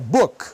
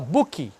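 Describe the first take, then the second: First: The word ends cleanly without an extra vowel. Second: An extra 'i' vowel is added at the end. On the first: The speaker calls it right. "é book" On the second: The speaker calls it wrong. "O cara vai lá e fala book. Não tem i"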